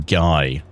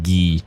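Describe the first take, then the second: First: The name is said with an English pronunciation. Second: The name is said with a French pronunciation. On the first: "I like just calling him Guy. Just more because I don't have to speak French" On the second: "they pronounce it as Guy"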